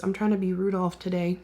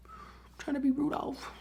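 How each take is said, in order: First: Said in the usual way. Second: Higher and softer, a cute little echo; playful higher repeat. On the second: Shown as a demonstration. Vlogger joking about her red nose, higher and softer. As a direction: say it again up high and hushed.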